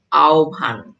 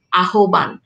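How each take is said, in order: First: আহ্বান said as aobhan, the h and b sounds swapped; spoken pronunciation. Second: আহ্বান read letter by letter as written, a-ho-ban; spelling pronunciation. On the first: Teacher shows students the real sound, আহ্বান as aobhan. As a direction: pronounce আহ্বান the natural way, aobhan. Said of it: "কিন্তু আমরা উচ্চারণ করি কি?". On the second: Teacher shows students the written form, spelling-style আহ্বান. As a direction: say আহ্বান exactly as spelled, ahoban. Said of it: "আমরা লিখি". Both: Shown as a demonstration.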